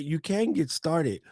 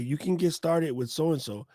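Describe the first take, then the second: First: "can" stressed and stretched, slower and higher. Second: Said in the usual way. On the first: Real, not acted. Conceding the common advice is true, stress on "can". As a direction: lean slowly on "can" to concede it.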